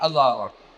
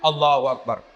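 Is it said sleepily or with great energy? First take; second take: sleepily; great energy. First: It is said sleepily, with no energy. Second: It is said with far too much energy.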